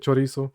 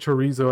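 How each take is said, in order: First: It is said with a Spanish-style pronunciation. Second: It is said with an English-style pronunciation. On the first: "I say chorizo" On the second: "you probably say chorizo"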